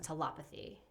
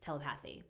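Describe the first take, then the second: First: The stress falls on the lep syllable. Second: The stress falls on the path syllable. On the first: The speaker calls it right. "but it's" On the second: The speaker calls it wrong. "it's tempting to say telepathy"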